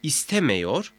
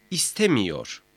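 First: "İstemiyor" said as istemeyor, rising; unnarrowed E vowel. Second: "istemiyor" with i before -yor, falling; narrowed vowel. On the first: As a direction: keep an e before -yor in "İstemiyor". ("İstemiyor", i yerine e ile) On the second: ("istemiyor", daralmış i ile) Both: Shown as a demonstration. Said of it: "mameyi de etkiler".

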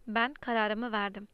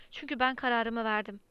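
First: "Ben kararımı verdim" said slowly, each word weighted; slow, final insistence on "Ben kararımı verdim"; firm, deliberate. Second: Said in the usual way. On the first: A narrator's reading. Uncle shaking the boy, repeats "Ben kararımı verdim" slowly and firmly. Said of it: "omuzlarından sıkıca tutup sarstı".

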